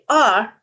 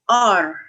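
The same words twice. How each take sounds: First: The R sound is soft, English style. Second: The R sound is strong, native style. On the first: The speaker calls it right. "to say R instead of R" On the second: The speaker calls it wrong. "this is a strong sound in in, in our native language"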